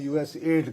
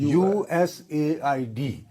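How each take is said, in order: First: The name is said as one word, 'U-S-aid'. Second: The name is spelled out letter by letter. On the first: "उसको यूएसएड कहने की बीमारी है तो जरा मैं यूएसएड कहता हूं" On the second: "जब अमेरिकन बात करेगा जी वो ये कहेगा यूएसएआईडी"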